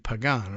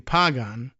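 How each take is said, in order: First: The stress is on the second syllable. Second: The stress is on the first syllable. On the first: "you should be accenting that second A if you wanted to be Pagan" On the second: "It could be Pagan Gonzalez"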